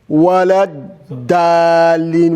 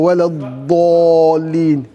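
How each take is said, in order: First: The d is plain, with an open 'a' vowel. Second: The d is heavy, with a darker 'o' vowel. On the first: The speaker calls it wrong. "not da" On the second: The speaker calls it right. "It's wala dolin"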